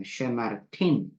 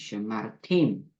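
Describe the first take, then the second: First: Slow "쉐마르틴" ending on an n; demonstrated pronunciation. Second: Slow, lower "쉐마르팀" with a final m; demonstrated pronunciation. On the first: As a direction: draw out "쉐마르틴" with a clear final "틴". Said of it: "그 다음도 마찬가지입니다". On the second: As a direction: draw out "쉐마르팀" and close on "팀". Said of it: "쉐마르팀 이렇게 합니다". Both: Shown as a demonstration.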